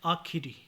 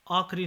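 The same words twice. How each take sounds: First: Said in the usual way. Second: आखिरी without the middle i; mispronunciation. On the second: Shown as a demonstration. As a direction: squeeze आखिरी to aakh-ri. (आखिरी को आखरी बोलें) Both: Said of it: "नहीं".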